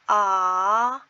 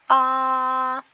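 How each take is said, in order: First: It is said with Mandarin second tone. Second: It is said with Mandarin first tone.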